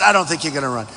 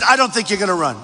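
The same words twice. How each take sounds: First: Lower, softer mock echo of the doubters; everybody's doubt. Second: The TV boss's doubt, lightly voiced; quoting Steve. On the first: Rally speaker echoing the doubters, lower softer mock. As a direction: drop it low and soft, mocking everyone. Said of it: "Everybody said". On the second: Rally speaker quoting the network boss, lightly voiced doubt. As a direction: say it as his boss dismissing him. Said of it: "He said".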